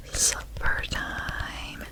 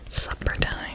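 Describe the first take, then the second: First: Supper time whispered very slowly, each word stretched; whispered Supper time, drawn out slowly; slow drawn-out demo. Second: Said in the usual way. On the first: Shown as a demonstration. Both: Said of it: "supper. It's supper time".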